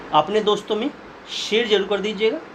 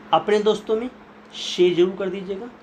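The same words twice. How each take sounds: Both takes have the same delivery.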